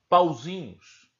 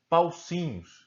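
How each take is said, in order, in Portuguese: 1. A consoante do meio é um som sonoro z. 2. A consoante do meio é um som surdo s. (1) "eles deveriam pronunciar a palavra pauzinhos" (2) "E eles pronunciavam paucinhos"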